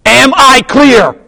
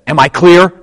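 First: Slow, high shouted demand; Jack Nicholson. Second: Raised, louder movie-quote challenge; firm demand. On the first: Officer on trial repeats himself to the lawyer, shouted demand. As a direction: bellow each word, imitating the film. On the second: Officer on trial questions the lawyer, firm imitated demand. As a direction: put the question firmly, imitating the film. First demand in courtroom scene. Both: Retold or imitated.

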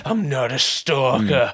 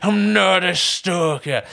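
First: Lightly voiced slow insistence; slow insistent denial. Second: Slow, stressing NOT, pitched up; higher slow insistent denial. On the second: Retold or imitated. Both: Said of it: "he's just like".

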